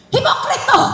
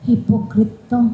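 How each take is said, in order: First: It is said angrily, as an exclamation. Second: It is said calmly, without anger.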